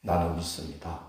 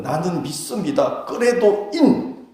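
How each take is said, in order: First: Solemn confession. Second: Early believers' confession. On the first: Shown as a demonstration. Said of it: "얼마나 중한 무게가 있는 말인지". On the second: Retold or imitated. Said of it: "초대교회 성도들은".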